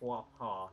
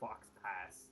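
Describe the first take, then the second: First: The final consonants are silent, French-style. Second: The final consonants are pronounced as written. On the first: The speaker calls it right. "that word that you mispronounced is called flop ha" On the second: The speaker calls it wrong. "You said fox pass"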